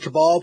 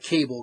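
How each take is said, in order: First: The name ends in a full 'bal' syllable. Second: The name sounds like the word cable. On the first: The speaker calls it right. "It's a Cabal, probably" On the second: The speaker calls it wrong. "so it's not Cable, because it's pronounced wrong"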